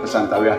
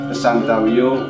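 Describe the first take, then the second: First: The word ends with an ah sound. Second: The word ends with an o sound. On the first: The speaker calls it wrong. "kadang kita melafalkan dengan kesantawiyah" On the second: The speaker calls it right. "tapi di baris kedua kesantawiyo"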